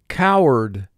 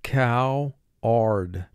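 First: The final syllable is said normally and reduced. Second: The final syllable is said fully, as spelled. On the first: This is the everyday pronunciation. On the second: This pronunciation helps with spelling.

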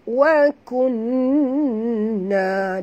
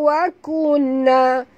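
First: The doubled n is held with a nasal hum. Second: The doubled n passes quickly without a held hum. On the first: The speaker calls it right. "dengung dulu baru sebut na" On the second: The speaker calls it wrong. "jangan baca wa kunna, ha, tak betul"

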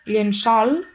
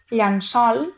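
First: The first vowel sounds like e. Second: The first vowel sounds like a. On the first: "com a E" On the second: "o com a A"

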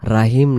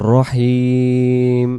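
First: The first vowel is thin and open. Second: The first vowel is heavy with rounded lips. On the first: The speaker calls it wrong. "রাহিম না" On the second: The speaker calls it right. "মানে মুখটা গোল হয় যে অক্ষরগুলো বলার সময় সেটাই হলো মোটা।"

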